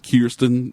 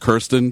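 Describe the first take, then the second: First: The first vowel is said the less common way. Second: The first vowel is said the common way. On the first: This is how the actress herself says her name. The speaker calls it right. "but it's Kirsten Dunst" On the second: This is how most people say the name. The speaker calls it wrong. "Everyone says Kirsten"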